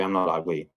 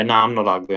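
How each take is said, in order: First: The second time softer, dropping away; I'm not ugly said softer and lower, almost to himself; quiet repeat. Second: Said in the usual way. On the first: Retold or imitated. Man telling himself he's not ugly, softer. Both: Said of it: "I try and say".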